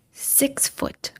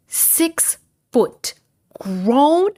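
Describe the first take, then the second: First: Breathy whisper, setting up the reveal; hushed build-up. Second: Six foot pitched higher and stretched out; emphatic repeat. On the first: Telling her viewers about the man, in a whisper. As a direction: whisper it like a secret. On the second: Telling viewers how big the man was, emphatic and high. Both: Real, not acted.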